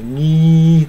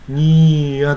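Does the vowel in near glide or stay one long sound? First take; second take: one sound; glide. First: The vowel stays one long steady sound. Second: The vowel glides into a second vowel sound. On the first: "にーとかね" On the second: "にーやと言わずに"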